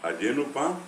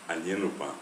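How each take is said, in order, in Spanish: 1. El prefijo tiene un sonido oral y. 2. El prefijo tiene un sonido nasal ñ. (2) "si la palabra es nasal, también eh, prefijos y sufijos eh, nasales"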